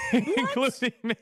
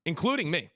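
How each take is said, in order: First: Laughing and higher, louder; admitting it through a laugh. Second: Said in the usual way. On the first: Real, not acted. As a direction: laugh the words out at yourself.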